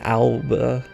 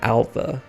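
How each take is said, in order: First: The middle consonant is a B sound. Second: The middle consonant is a V sound. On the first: The speaker calls it wrong. "as much as you look at it and think" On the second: The speaker calls it right. "these are pronounced like V's"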